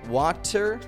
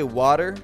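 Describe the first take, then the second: First: The word is said with a non-American pronunciation. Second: The word is said with an American pronunciation. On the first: "and not water" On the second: "why Americans say water"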